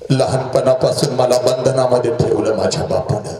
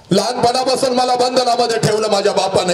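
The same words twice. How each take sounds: First: Said in the usual way. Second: Higher, fast, heated repeat of "लहानपणापासून मला बंधनामध्ये ठेवलं"; rising complaint. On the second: Acted. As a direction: push it faster and higher.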